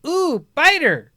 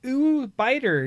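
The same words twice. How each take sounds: First: Put-on high, slow, delighted toddler coo. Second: Put-on higher toddler coo, a lighter take. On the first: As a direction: coo it like a fascinated baby. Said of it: "I hear her go". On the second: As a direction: coo it like a curious baby.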